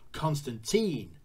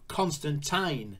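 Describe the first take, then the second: First: The name is said in a North American way. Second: The name is said in a British way. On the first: "they bump for the North American pronunciation" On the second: "Alan Moore is British, like myself, and we say Constantine"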